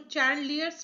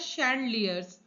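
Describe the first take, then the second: First: The word begins with a 'ch' sound. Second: The word begins with an 'sh' sound. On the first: The speaker calls it wrong. "इसको चैंडलियर्स मत पढ़ना" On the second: The speaker calls it right. "ये होता है शैंडलियर्स"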